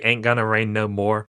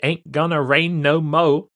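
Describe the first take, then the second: First: The last word is said as more, with r. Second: The last word is said as mo, no r. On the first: "Can you say ain't gonna rain no more?" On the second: "Do you have to say it with the mo?"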